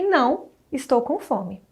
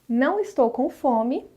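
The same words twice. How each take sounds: First: There is a pause after não. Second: It is said without a pause after não.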